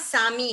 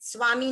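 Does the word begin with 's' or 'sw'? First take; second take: s; sw. First: The word begins with a plain 's' sound. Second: The word begins with an 'sw' sound. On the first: The speaker calls it right. "सामी है" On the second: The speaker calls it wrong. "स्वामी नहीं है"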